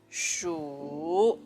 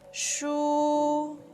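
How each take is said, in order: First: It is said with the third tone. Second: The pitch stays high and level. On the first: "This is the third tone" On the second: "is high and flat"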